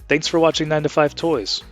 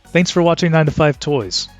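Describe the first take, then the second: First: The voice is processed to sound clear. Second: The voice is heard with no enhancement. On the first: "It's now on clear" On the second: "with the voice enhancer turned off"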